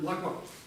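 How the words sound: The first vowel is almost dropped entirely. This is another regional accent. "гласное практически выбрасывается"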